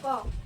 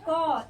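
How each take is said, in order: First: The sound is cut very short. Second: The sound is drawn out long. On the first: It is a bare consonant without a vowel. "इसे सीधे ऐसे बोलेंगे क, एकदम जल्दी से" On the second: It is the consonant with a vowel after it. "इसको देर तक बोली"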